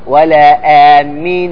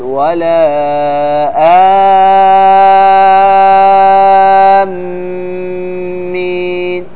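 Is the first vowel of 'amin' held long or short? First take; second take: short; long. First: The first vowel is held for two counts. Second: The first vowel is held for six counts. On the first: The speaker calls it wrong. "لا تقول إن مد بدل، أعطيه حركتين ... خطأ" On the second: The speaker calls it right. "بل عليك أنك تمده أكثر"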